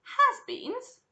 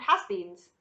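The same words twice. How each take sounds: First: Very high, loud echo; incredulous cry. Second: Said in the usual way. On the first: A narrator's reading. Violet cries out at the sign on the door, incredulous. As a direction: exclaim it in disbelief. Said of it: "cried Vi-, Violet Beauregarde".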